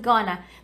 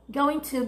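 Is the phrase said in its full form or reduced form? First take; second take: reduced; full. First: The words are blended into one reduced word. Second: Both words are said fully and separately.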